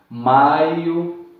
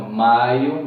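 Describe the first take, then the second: First: Maio said loud, leaning on the a; maio, falling diphthong shown loud; stressed demo word. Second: Maio said loud again, a strong and rising; Maio, teacher repeats the model; repeated demo word. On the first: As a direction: push the a of maio, let the io fade. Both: Shown as a demonstration. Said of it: "A é mais forte".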